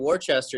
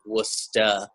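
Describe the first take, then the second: First: The name is said fully, sounding out its letters. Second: The name is clipped short in a Boston accent. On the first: An outsider said it this way. "I had a quick correcting" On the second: People from Boston say it this way. "how do people say it from Boston?"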